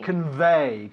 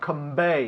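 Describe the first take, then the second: First: The middle consonant is a clear V sound. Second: The middle consonant is not a clear V sound. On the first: The speaker calls it right. "It's un V. ... Casi como un F" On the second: The speaker calls it wrong. "not convey"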